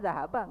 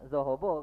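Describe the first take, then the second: First: The vowels sound like a clear 'a'. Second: The vowels sound like a rounded 'o'. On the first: The speaker calls it right. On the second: The speaker calls it wrong.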